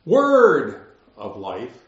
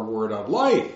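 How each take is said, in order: First: "word" punched loud and drawn out, "of life" trailing off; stress on WORD. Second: "word of" light, weight landing on "life"; stress on LIFE. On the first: Preacher showing the congregation one emphasis, loud stress on "word". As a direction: lean hard on "word", slowly. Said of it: "we could either say that". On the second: Preacher contrasting the emphasis, stress moved onto "life". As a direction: let "life" carry the focus. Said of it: "where's the emphasis". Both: Shown as a demonstration.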